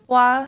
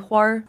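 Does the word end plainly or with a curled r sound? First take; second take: plain; curled r. First: It ends plainly, without a curled r. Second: It ends with a curled Beijing-style r.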